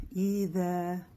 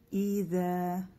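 No difference in how they are said.

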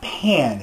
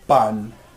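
First: It is said with an English-style vowel. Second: It is said with a Spanish-style vowel. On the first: The speaker calls it wrong. "It's not pan" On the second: The speaker calls it right. "but it's pronounced pan"

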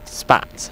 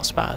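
First: The word ends with a 'ts' sound. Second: The word ends with a 'z' sound. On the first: The speaker calls it right. "Spats, not Spaz, sorry, Spats" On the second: The speaker calls it wrong. "not Spaz"

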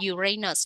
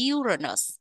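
First: The stress is on the second syllable. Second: The stress is on the first syllable. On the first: The speaker calls it wrong. "nếu các bạn nhấn âm 2, Uranus là bị sai nha" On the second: The speaker calls it right. "Nhấn âm 1"

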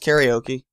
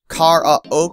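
First: The word is said in the speaker's usual way. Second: The word is said imitating another person's pronunciation.

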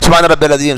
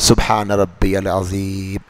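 First: It is recited fast and hurried. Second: It is recited slowly and calmly.

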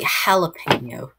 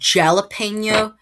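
First: The word begins with an h sound. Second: The word begins with a j sound. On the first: The speaker calls it right. "The J is also sounds like H. you say" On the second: The speaker calls it wrong. "instead of saying"

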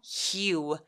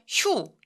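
First: The vowel glides from ee to oo. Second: The vowel is one single sound. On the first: The speaker calls it right. "이유라고 소리 내주세요" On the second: The speaker calls it wrong. "휴 이렇게 한 번에 소리 내지 않고요"

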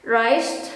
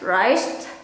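First: It is said in a relaxed, casual everyday way. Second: The same.

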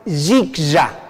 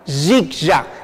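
The two takes are said the same way.

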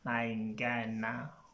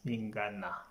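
First: The first vowel is an 'a' sound. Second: The first vowel is an 'i' sound. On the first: The speaker calls it wrong. "It's not Nangana" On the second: The speaker calls it right. "it's Ningana"

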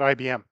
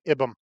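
First: It is spoken as three separate letters. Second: It is spoken as one word, not letters. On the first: The speaker calls it right. "not IBM" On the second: The speaker calls it wrong. "if we treated the name of the company that created SQL the same way, we'd be calling it IBM"

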